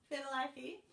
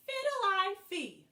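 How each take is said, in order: First: Said in the usual way. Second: "Fiddle-I-fee" stretched out slowly, high and loud. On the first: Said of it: "Can you say that?". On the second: Shown as a demonstration. Teacher modelling the cat's funny word. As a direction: draw out "Fiddle-I-fee" for the kids to copy. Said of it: "our cat says".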